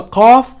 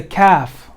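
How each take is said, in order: First: Qaf with a back q and dark vowel. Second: Kaf with a front k and light vowel. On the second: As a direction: say kaf with an aspirated k. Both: Shown as a demonstration. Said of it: "There are two letters that sound very similar".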